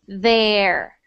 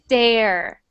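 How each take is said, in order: First: The first sound is a soft th. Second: The first sound is a hard d. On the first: The speaker calls it right. "I need it to sound like there" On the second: The speaker calls it wrong. "if you don't, then it sounds like a duh, like this"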